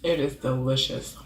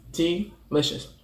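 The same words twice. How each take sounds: First: Said in the usual way. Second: Slow, drawn-out "Delicious"; lingering over "Delicious"; savoured. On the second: Real, not acted. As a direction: stretch "Delicious" out, tasting it. Savours the word slowly.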